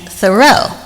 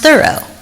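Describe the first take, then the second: First: The name does not sound like 'thorough'. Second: The name sounds just like the word 'thorough'. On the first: The speaker calls it wrong. "I grew up saying Thoreau" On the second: The speaker calls it right. "it is pronounced thorough, like thorough and thoroughfares"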